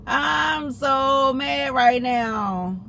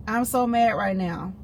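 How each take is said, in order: First: High, very drawn-out exasperated wail; mad. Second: Said in the usual way. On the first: Real, not acted. Venting to friends about the wrong pharmacy, drawn-out mad wail. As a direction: stretch every word in raised frustration.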